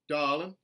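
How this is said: The R sound is dropped. "a general Southern dropped R"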